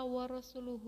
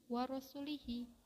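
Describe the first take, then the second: First: The vowels after the l sound like 'u'. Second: The vowels after the l sound like 'i'. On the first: The speaker calls it right. "seharusnya huruf lam dibaca dhammah" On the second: The speaker calls it wrong. "atau huruf lam dibaca kasroh"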